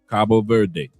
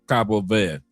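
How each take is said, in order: First: The final 'de' of Verde is pronounced. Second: The final 'de' of Verde is dropped.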